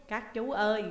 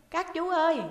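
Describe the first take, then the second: First: Said in the usual way. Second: Put-on high, loud child's call across the cells. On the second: A narrator's reading. Boy calls through the cell wall, high and loud. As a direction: call out to the teachers in the next cell. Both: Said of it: "nó lại nheo nhéo".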